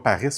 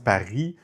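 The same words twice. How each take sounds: First: The final S sound is pronounced. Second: The final S sound is silent. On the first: The speaker calls it wrong. "on dit pas Paris" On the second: The speaker calls it right. "on dit Paris. C'est juste un S comme parisien"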